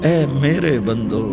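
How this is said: It is said in a warm, loving tone. The speaker calls it right. "मोहब्बत और प्यार"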